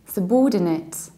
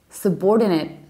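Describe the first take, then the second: First: It is said in a British accent. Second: It is said in an American accent.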